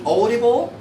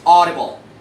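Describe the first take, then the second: First: The first vowel glides, sounding wavy. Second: The first vowel stays steady and flat. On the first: The speaker calls it wrong. "Don't say audible, no wavy" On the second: The speaker calls it right. "It's flat, it's straight"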